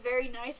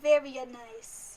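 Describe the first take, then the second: First: It is said in a plain, ordinary accent. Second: It is said in a put-on Italian accent. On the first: This is how most readers hear it. "you probably read it as" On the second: This is how the speaker hears it. "I read it in Italian accent"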